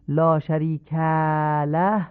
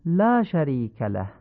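First: «لا شریک له» slow with a stretched tail; wrong drawn-out ending. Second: «لا شریک له» with a short clean ending; proper even reading; correct lengths. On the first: Teacher demonstrates the wrong way, slow and stretched. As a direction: overlong faulty reading. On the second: Teacher gives the right version after the wrong one. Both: Shown as a demonstration. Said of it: "نیست، غلطه".

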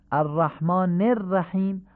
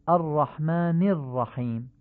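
First: الرحمن الرحیم as "arrahmaane-rrahim"; higher-pitched demo with Persian e after الرحمن; الرحمن linked by e, not i; Persian-style reading. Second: الرحمن الرحیم as "ar-rahmaani r-rahim"; short i after الرحمن; Arabic heavy r and h in الرحیم; Arabic kasra. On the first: Teacher shows Persian-style reading first. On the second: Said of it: "به لهجهٔ عربی تمرین کنید". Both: Shown as a demonstration.

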